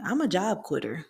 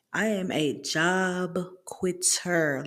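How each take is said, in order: First: Said in the usual way. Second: "am" stressed, slow, drawn-out, every word separate. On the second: Real, not acted. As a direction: lean hard on "am", spoken slowly. Admitting she quits jobs.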